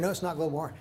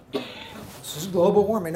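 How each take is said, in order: First: Said in the usual way. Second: Mock claim. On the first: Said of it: "correcting the claim". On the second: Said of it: "mocking the claim again".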